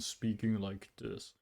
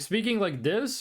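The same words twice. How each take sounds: First: The voice is pitched low and deep. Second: The voice is pitched high and normal. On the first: This way of speaking strains the voice less. The speaker calls it right. "speaking with the deep voice actually helps" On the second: This way of speaking strains the voice more. The speaker calls it wrong. "hurts my voice more"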